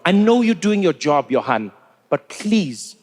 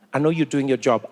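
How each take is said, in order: First: Pleading. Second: Said in the usual way. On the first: Retold or imitated. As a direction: press the word "know" harder, begging.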